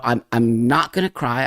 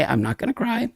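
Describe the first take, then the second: First: Said in the usual way. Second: Real emotion, trying not to cry; holding back tears. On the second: Real, not acted. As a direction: voice cracks up high and soft, fighting tears. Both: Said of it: "I get very emotional".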